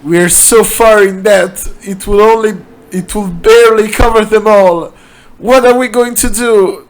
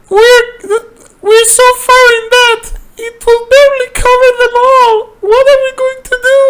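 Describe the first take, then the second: First: It is said in Doug's voice. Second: It is said in the woman's voice.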